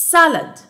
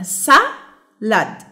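First: Said in the usual way. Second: "salad" slowly broken into sa and lad; split into syllables. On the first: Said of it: "the next word". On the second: Shown as a demonstration. Teacher showing two syllables, "salad" syllable by syllable. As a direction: say "salad" with a gap after sa. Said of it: "علشان كده دي بتتكون من two syllables".

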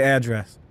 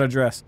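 First: "address" said AD-dress; stress on first syllable. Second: "address" said uh-DRESS; stress on second syllable. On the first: Player confirms their own way, "address" as AD-dress. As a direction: put the weight on AD in "address". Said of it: "I do say address". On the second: Player rejects the other way, "address" as uh-DRESS. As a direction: put the weight on DRESS in "address". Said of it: "not address". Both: Shown as a demonstration.

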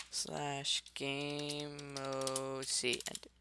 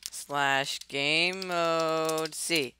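First: Soft, very slow command; quiet slow dictation. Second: Very slow, drawn-out command; slow dictation. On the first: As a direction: murmur it out word by word. Repeats the command quietly, slowly. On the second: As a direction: spell out each word slowly. Typing a command aloud, slowly. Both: Real, not acted.

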